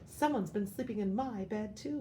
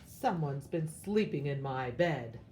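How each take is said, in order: First: A distressed, crying voice is used. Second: A loud, deep, booming voice is used.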